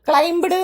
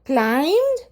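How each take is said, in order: First: A b sound is heard before the ending. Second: No b sound is heard before the ending. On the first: The speaker calls it wrong. "ഒരിക്കലും ക്ലൈംബഡ് എന്നൊന്നും വായിക്കരുത്" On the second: The speaker calls it right. "ബി silent ആണ്"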